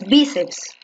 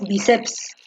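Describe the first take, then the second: First: The stress is on the first syllable. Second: The stress is on the second syllable. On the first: The speaker calls it right. "porque tú dices bíceps" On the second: The speaker calls it wrong. "tú no dices bíceps"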